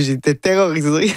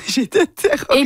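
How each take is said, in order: First: Said in the usual way. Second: A playful mock-frightened squeal with laughter; laughing mock terror. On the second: Real, not acted. Guest laughing at her own stage fright, high mock-terrified. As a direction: repeat it laughing, much higher. Recalls fear, then laughs.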